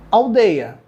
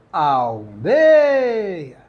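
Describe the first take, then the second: First: Said in the usual way. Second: "Aldeia" drawn out with stress on "dei"; stressed syllable shown. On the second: Shown as a demonstration. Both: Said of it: "estamos diante aí de uma paroxítona".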